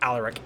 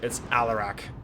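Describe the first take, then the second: First: The name is said quickly and loosely. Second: The name is said slowly and distinctly. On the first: The speaker calls it wrong. "It's not Alaric" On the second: The speaker calls it right. "It's more pronounced than that. don't say it too quick"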